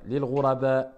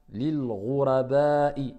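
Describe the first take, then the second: First: Lil ghuraba with the last vowel dropped at the stop; pausal form. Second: Lil ghuraba'i with the last vowel i said out in full; full final vowel. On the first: Teacher showing the pausal reading, last vowel dropped. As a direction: end ghuraba on a clean a, no final i. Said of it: "Si on s'arrête". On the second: Teacher reading on without a stop, final vowel kept. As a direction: sound the final i of ghuraba'i clearly. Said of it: "quand on s'arrête, on prononce pas la dernière voyelle". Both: Shown as a demonstration.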